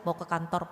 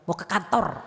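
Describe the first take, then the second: First: It is said calmly and plainly. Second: It is said sharply and harshly. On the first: The speaker calls it right. "Biasa aja" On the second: The speaker calls it wrong. "saya ketemu perempuan galak banget"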